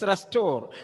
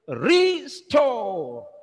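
First: The first syllable is weak and unstressed. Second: The first syllable re- is stressed and separated. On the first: "the pronunciation is restore" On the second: "in order to understand the meaning, I would say restore"

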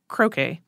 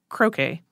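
First: It is said the way people in England say it. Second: It is said the way people in England say it.

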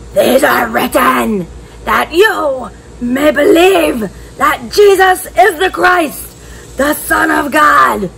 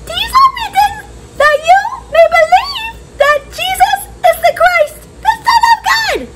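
First: It is said in a growly lion voice. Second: It is said in a squeaky mouse voice.

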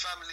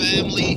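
First: It is said in his own British accent. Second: It is said in a put-on American accent.

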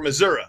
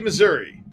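First: It is said the way local residents say it. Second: It is said the ordinary, non-local way.

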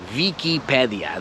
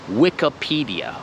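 First: It is said with Polish pronunciation. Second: It is said with English pronunciation. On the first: The speaker calls it wrong. "To nie jest Wikipedia, to nie jest, po polsku oczywiście" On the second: The speaker calls it right. "ale po angielsku jest Wikipedia"

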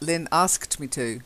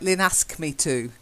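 First: The word asked ends with a clear t sound. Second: The word ask ends without a final t sound. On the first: The speaker calls it right. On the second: The speaker calls it wrong. "when you say it, it's like"

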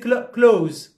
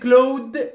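First: It sounds like close, with no th sound. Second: The th sound is pronounced before the s. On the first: The speaker calls it right. "We say close" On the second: The speaker calls it wrong. "We don't say clothes"

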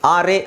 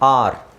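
First: An extra vowel sound follows the R. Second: The word ends on the R sound. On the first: The speaker calls it wrong. "ಆರ್ ಎ ಅಂತ ಹೇಳೋದಲ್ಲ" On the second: The speaker calls it right. "So ಇ silent ಆಗಿರುತ್ತೆ"

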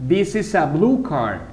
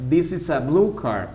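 The two takes are said the same way.

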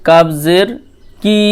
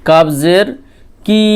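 No difference in how they are said.

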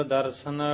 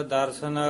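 Both takes have the same delivery.

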